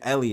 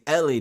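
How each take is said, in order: First: The name is said in a plain, basic way. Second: The name is said with extra emphasis and flair.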